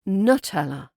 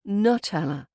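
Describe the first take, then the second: First: The first vowel is reduced to a schwa. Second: The first vowel is reduced to a schwa.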